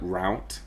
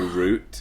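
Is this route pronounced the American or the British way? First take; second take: American; British. First: It is said with the American pronunciation. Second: It is said with the British pronunciation. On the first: This is the pronunciation the speaker dislikes. The speaker calls it wrong. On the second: This is the pronunciation the speaker prefers. The speaker calls it right.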